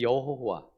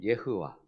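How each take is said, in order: First: The name is said as Korean yeo-ho-wa. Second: The name is said as Hebrew-style ye-heu-wa.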